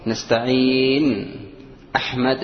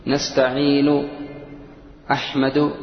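First: نستعين أحمد said slowly, final vowel dropped on أحمد; pausal form. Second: نستعين أحمد said slowly with the final vowel kept, أحمدُ ending in u; connected form. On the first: Quran teacher demonstrating a pausal form, vowel dropped. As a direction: drop the vowel, say أحمد as ahmad. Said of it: "نطقها في الوقف". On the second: Teacher showing the connected reading, vowel kept. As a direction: keep the u at the end of أحمد. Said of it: "هذا في الوصل". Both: Shown as a demonstration.

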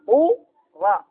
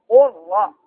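First: "قو را" with the lam fully merged into the ra; إدغام كامل. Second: "قل را" with the lam sounded before the ra; اللام ظاهرة. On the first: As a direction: say قو را with no lam left. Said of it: "ما فيش لا". (إدغام اللام في الراء إدغامًا كاملًا) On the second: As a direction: say قل را keeping the lam audible. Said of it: "قل ربي". (نطق "قل را" بلام ظاهرة) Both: Shown as a demonstration.

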